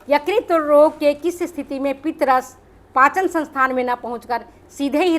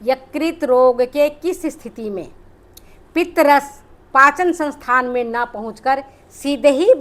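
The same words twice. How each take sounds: First: The sentence is spoken quickly. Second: The sentence is spoken slowly. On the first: "मैं जल्दी बोल गई हूं" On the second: "अब धीरे धीरे बोलती हूँ"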